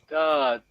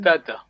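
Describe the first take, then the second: First: The vowel is said long. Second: The vowel is said short. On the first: The speaker calls it right. "is long vowel. We say" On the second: The speaker calls it wrong. "We don't say"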